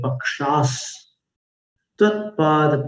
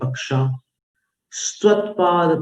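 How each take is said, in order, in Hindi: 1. 'sa' विराम से पहले पहले शब्द का अंत करता है। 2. 'sa' विराम के बाद दूसरे शब्द की शुरुआत करता है। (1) "ऐसा पाठ किया जाता है" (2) "यदि आप ऐसा पढ़ते हैं ... आपकी शिक्षा में चूक है"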